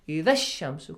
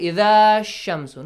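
First: The vowel before ash-shamsu is kept short. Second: The vowel before ash-shamsu is held long. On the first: The speaker calls it right. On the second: The speaker calls it wrong. "You do not say idha ash-shamsu. No"

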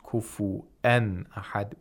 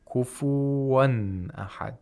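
First: A glottal stop separates the vowels in the word. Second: A w sound links the vowels in the word. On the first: "if you apply the nabra, it becomes kufuan ahad" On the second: "If you pronounce the hamza with tasheel, it becomes a waw"

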